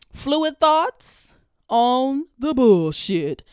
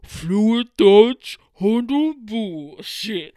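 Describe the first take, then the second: First: Slow, drawn-out announcer voice, louder on the title; segment announcer. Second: Slow, louder, drawn-out title like a sound-effect intro; mock a radio jingle, stretching each word; show intro voice. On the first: Acted. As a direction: stretch the title out like a show intro. Announcing her podcast segment name. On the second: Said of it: "and it's gonna be like".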